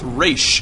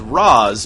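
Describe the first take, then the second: First: The name ends with an 'sh' sound. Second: The name ends with a 'z' sound. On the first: This is the Arabic pronunciation. "it's pronounced Raish al Ghul" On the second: This is how the character's original writer said it. "he was pronouncing it as Raz"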